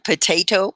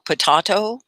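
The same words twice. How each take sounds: First: "potato" said po-TAY-to; "potato" with stressed TAY, American style; American pronunciation. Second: "potato" said po-TAH-to, higher; "potato" with stressed TAH, lifted at the end; British-style pronunciation. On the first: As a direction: say "potato" with a long AY in the middle. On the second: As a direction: say "potato" with AH in the middle. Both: Shown as a demonstration. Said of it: "it's just different".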